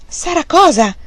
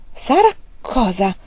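First: High, loud, abrupt question; impatient high-pitched demand; brusque. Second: Drawn-out, prying question; slow, curious prompt; impatient curiosity. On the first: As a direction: demand it sharply. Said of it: "chiese Fanny bruscamente". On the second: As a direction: ask slowly, itching to know. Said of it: "chiese Fanny con impaziente curiosità". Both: A narrator's reading.

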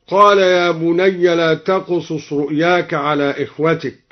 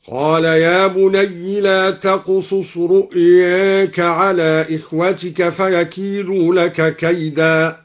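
First: Said in the usual way. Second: Slow chant, بني as "bunayyi", رؤياك with its a tilted to e; taqlil and kasra. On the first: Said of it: "بكسر الياء". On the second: Shown as a demonstration. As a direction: recite slowly, رؤياك like "ru'yeeka". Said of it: "وقلل أيضًا لفظ رؤياك". (تلاوة مرتلة بكسر ياء بني وتقليل رؤياك)

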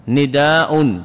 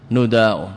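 First: نداء said nidaa, kasra on the nun, long vowel, final hamza; long kasra form nidaa. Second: نداء said nudaa, damma on the nun, long vowel, final hamza; long damma form nudaa. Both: Shown as a demonstration. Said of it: "الندى والنداء أكثر من الندى والنداء".

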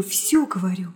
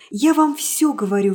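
First: Lower, dropped repeat. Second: Louder, insistent first take; emphatic. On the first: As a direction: let it fall away. Repeated phrase, softer echo. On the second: Nastenka insisting to the hero, loud and emphatic. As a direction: press it home. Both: Acted.

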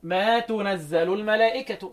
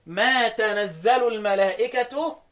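First: "tu" at the start of تنزل; damma on تنزل. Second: Slow تنزل as "tanazzalu"; open t in تنزل. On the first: Teacher applies Shu'ba's damma, تنزل as tunazzalu. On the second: Teacher recites the verse as it stands, تنزل as tanazzalu. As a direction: fatha on the t of تنزل, recited slowly. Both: Shown as a demonstration. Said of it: "قال لك ضم التاء".

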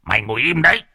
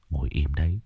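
First: Put-on the old man snaps at him; scolding. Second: Soft, low hushed command; hushed order. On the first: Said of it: "Ông cụ Mốc cũng cau mày". (quát mắng) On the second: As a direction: keep him still without a sound. Calming scared man, stay quiet. (ra lệnh khẽ) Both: A narrator's reading.

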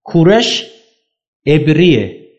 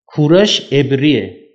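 First: Said in the usual way. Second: کورش عبریه repeated slowly, stress on کورش; slow emphatic repeat. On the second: Shown as a demonstration. Teacher correcting the linguist's error, slow and emphatic. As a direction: spell out کورش عبریه word by word for the class. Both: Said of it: "زبانشناس اومده اشتباه نوشته".

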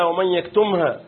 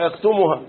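First: يكتمها with a still mim, yaktumha; correct recitation. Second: يكتمها with u on the mim, yaktumuha; mistaken recitation. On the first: Teacher quotes the verse for students, correct recitation. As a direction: close the mim in يكتمها straight into ha. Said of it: "ياخد باله من قوله تعالى". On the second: Teacher imitates how some misread it, mistaken recitation. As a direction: add a damma after the mim in يكتمها. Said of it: "بيضم الميم". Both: Shown as a demonstration.

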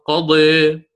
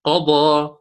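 First: قضي with the last vowel tilted to "eh"; taqlil reading. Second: قضى with a full open final aa; open fath reading. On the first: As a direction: end قضي between a and i. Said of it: "فهذه فيها الخلف". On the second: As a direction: end قضى on a heavy, open "aa". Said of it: "والفتح مقدم دائمًا". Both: Shown as a demonstration.

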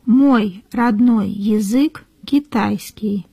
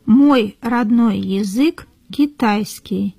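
The two takes are said the same way.

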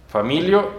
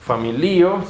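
First: Familio as fa-MI-lio; wrong Spanish stress. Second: Familio as fa-mi-LI-o; stress on second-last syllable. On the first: Teacher rejects the non-word, familio said fa-MI-lio. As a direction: put the weight on MI in familio. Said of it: "no es una per". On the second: Teacher confirms the real word, familio stressed fa-mi-LI-o. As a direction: lean on the LI in familio. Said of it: "sí es una palabra del Esperanto". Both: Shown as a demonstration.

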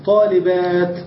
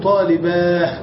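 First: "طالبات" drawn out to a sounded final t; pausal t ending. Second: "طالباه" ending on a breathed h, no t; pausal h ending. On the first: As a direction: end "طالبات" on a clear unvowelled t. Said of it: "الوقف عليها بالتاء". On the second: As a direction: draw out "طالباه" and close on h. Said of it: "ونقف بالهاء وهو قليل". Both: Shown as a demonstration.

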